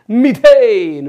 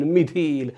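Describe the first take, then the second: First: methane loud and high, falling at the end; punchy classroom call; shouted drill. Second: Said in the usual way. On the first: Shown as a demonstration. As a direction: belt out methane to lead a chant. Chants alkane against alkyl name.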